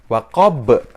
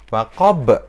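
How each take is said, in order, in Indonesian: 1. Kata ini berakhir dengan konsonan pantul. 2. Kata ini berakhir dengan konsonan pantul.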